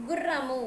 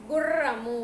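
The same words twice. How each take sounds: First: గుర్రము with a short double r; ordinary double r. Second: గుర్రము with a long, vibrating rr; vibrating bandi-ra. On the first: Teacher shows pupils the word without bandi-ra, short rr in గుర్రము. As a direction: keep the rr in గుర్రము compact. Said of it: "బనిరా రాకుండా". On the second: Teacher shows pupils the vibration, long trilled rr in గుర్రము. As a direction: roll the rr hard in గుర్రము. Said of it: "vibrations తెలుసు కదనా". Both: Shown as a demonstration.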